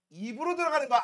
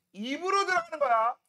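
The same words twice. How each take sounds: First: Says it again through a laugh; teacher laughing at the obvious answer; laughing repeat. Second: Said in the usual way. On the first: Shown as a demonstration. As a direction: chuckle while repeating. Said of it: "repeated laughing". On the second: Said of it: "repeated for emphasis".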